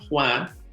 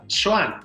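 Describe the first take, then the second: First: The name starts with the Spanish j sound. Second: The name starts with an sh sound. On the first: This is the original Spanish name. "el sonido J en los nombres como Juana, Juan" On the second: This is the name adapted to Nahuatl. "representado en el náhuatl por el sonido sh"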